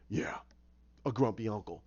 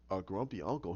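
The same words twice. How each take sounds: First: GRUMPY UNCLE low, falling at the end; matter-of-fact confirmation. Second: GRUMPY UNCLE low and soft, rising at the end; puzzled question. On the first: Storyteller answering the listener, matter-of-fact, UNCLE falling. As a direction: confirm "grumpy uncle" with a settled downward ending. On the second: Listener checking the story he was told, puzzled question on UNCLE. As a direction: query "grumpy uncle" quietly with a lifted ending. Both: Retold or imitated.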